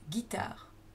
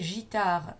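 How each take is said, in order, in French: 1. Il commence par un g dur. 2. Il commence par un son zh doux. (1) "la lettre G se prononce ge" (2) "ce qui n'est pas possible, comme dans bougie"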